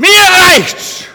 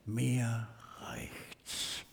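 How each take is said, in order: First: The phrase is said loudly, almost shouted. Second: The phrase is said quietly, as if to oneself. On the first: Frustration is let out openly. "Seid ihr wach?" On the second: Frustration is kept inward. "Darum sage ich das eher mehr leise für mich"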